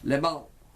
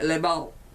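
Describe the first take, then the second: No difference in how they are said.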